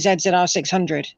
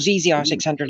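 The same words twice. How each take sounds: First: The letter Z is said as 'zed'. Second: The letter Z is said as 'zee'. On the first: This is the speaker's own way of naming it. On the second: This is how the listeners would name it.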